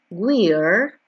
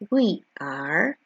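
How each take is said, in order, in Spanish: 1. Las dos palabras se unen en una sola sílaba. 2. Ambas palabras se dicen completas y por separado. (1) "Escuchemos la contraction" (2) "La forma larga es esta"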